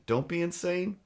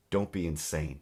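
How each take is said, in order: First: Higher, odd put-on voice; mock the landlord in a silly voice; squeaky mock voice. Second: Said in the usual way. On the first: Shown as a demonstration.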